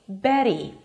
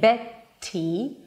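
First: The voice keeps going through a soft T. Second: The voice stops briefly for a crisp T. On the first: The speaker calls it right. "keep your voice going" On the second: The speaker calls it wrong. "instead of stopping your voice for a T"

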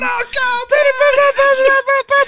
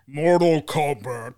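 First: It is shouted loudly like the song. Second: It is said in a very low voice.

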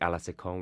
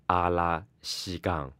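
First: It is said with a French pronunciation. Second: It is said with a Chinese accent.

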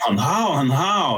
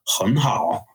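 First: It is said emotionally, with a sharp fall. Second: It is said calmly, without an emotional fall. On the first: The speaker calls it wrong. "don't start saying hun hao ... it's going to really mess everything up" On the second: The speaker calls it right. "drain the emotion out of yourself and remember"

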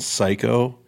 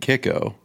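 First: The name begins with an s sound. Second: The name begins with a k sound. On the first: "I've gotten psycho" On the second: "I've gotten kicko"

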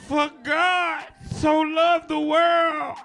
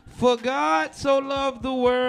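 First: It is read like a fiery, energetic preacher. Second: It is read flatly, without preaching energy.

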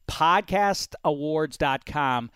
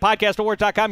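First: The phrase is said slowly and carefully. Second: The phrase is said quickly and casually. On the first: Each word is meant to be clearly understood. The speaker calls it right. "I'm saying it slowly so that you can hear my words" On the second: The words may be hard to catch. The speaker calls it wrong. "If I just said it"

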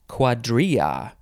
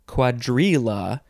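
First: The double L is said without an L sound. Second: The double L is said with an L sound.

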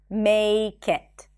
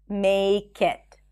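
First: The K sound is linked onto the next word. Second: The same.

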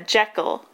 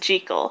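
First: Jekyll is said with an American pronunciation. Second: Jekyll is said with a non-American pronunciation. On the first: This pronunciation came from one actor's accent. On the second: This is the pronunciation used before that actor.

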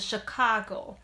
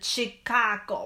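First: The opening ch sound is light and relaxed. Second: The opening ch sound is hard and forceful. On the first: The speaker calls it right. "是Chicago" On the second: The speaker calls it wrong. "你也不用是Chicago，没有人这样讲"

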